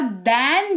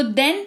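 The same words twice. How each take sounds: First: 'than' with a drawn-out open vowel; 'than' vowel shown. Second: 'then' said with a short e; 'then' vowel shown. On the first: Teacher says 'than' sounds different, 'than' vowel stretched. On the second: Teacher contrasts 'then' with 'than' for learners, 'then' vowel shown. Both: Shown as a demonstration. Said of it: "इसका तो उच्चारण भी अलग है".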